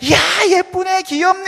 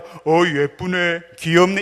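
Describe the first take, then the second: First: It is said in a raised, high voice. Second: It is said in a normal voice.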